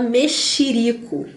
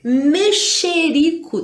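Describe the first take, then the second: First: "mexerico" as me-XI-rico; common mispronunciation. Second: "Mexerico" drawn out high as me-XE-rico; spelling pronunciation. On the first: Teacher shows what everybody says, common mispronunciation. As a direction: turn the XE of "mexerico" into XI. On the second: Teacher models the written word, spelling pronunciation. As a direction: slowly sound the second E in "Mexerico". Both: Shown as a demonstration. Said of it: "todo mundo fala mexerico".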